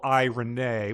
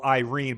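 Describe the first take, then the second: First: The name is said with three syllables. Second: The name is said with two syllables. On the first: "a three syllable I Renee" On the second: "a two syllable Irene"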